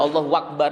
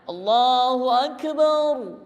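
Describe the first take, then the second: First: An extra w sound comes before Akbar. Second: The vowel after b is drawn out long. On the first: "Wawu kemudian ada wawu" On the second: "Tambahnya alif di belakang ba"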